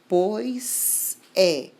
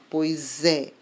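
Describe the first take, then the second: First: Said slowly with a long pause between words. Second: Said quickly with the words run together. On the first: "primeiro ler com uma grande pausa, então devagar" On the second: "rápido, tudo junto"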